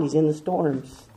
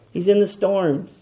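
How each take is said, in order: First: Hushed reply; softer answer. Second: Said in the usual way. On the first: Shown as a demonstration. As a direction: drop the voice on He's in the storms. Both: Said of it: "where is he found".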